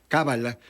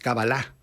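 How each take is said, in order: First: The stress is on the first syllable. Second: The stress is on the last syllable. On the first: The speaker calls it wrong. "lo pronunciamos como si fuera un término esdrújulo" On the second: The speaker calls it right. "es oxítono, es decir, agudo"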